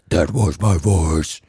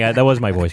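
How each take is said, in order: First: It is said in a deep, rough growling voice. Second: It is said in a normal speaking voice. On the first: "Say that was actually my voice in that voice" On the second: "That was actually my voice"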